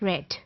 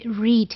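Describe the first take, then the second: First: The vowel is short, rhyming with 'bed'. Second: The vowel is long, rhyming with 'need'. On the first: It is the past form. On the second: It is the present form.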